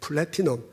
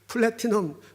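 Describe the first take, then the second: First: The word is said with an English-style accent. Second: The word is said with a Korean-style accent. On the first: "영어 발음을 잘하려니까 되게 불편한데" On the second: "우리 그냥 한국식으로"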